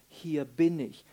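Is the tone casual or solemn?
solemn. It is said in a solemn, devoted tone. The speaker is offering himself fully in service. The speaker calls it right. "Das bedeutet, ich stehe zu deinen Diensten"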